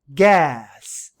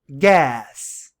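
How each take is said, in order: Both takes have the same delivery.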